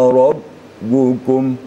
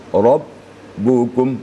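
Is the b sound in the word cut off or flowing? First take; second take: cut off; cut off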